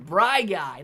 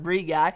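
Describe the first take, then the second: First: The first vowel sounds like 'eye'. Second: The first vowel sounds like 'ee'. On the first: The speaker calls it right. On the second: The speaker calls it wrong. "not Bree Guy"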